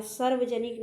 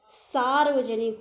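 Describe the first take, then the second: First: सार्वजनिक begun with a short 'sar'; short first vowel. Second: सार्वजनिक with a long, louder 'saar'; long first vowel. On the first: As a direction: say सार्वजनिक as 'sarvajanik'. (सार्वजनिक में पहला 'स' छोटा) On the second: (सार्वजनिक में 'सा' लंबा) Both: Shown as a demonstration. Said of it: "सार्वजनिक नहीं".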